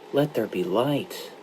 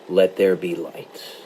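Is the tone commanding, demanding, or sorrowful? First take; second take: sorrowful; commanding. First: It is said as a sorrowful request. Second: It is said as an authoritative command.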